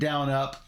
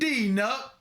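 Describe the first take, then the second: First: The first syllable sounds like 'down'. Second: The first syllable sounds like 'dean'. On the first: This is how others pronounce the name. "I think they pronounce it down up" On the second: This is how the speaker personally pronounces the name. "I pronounce it Dean Up"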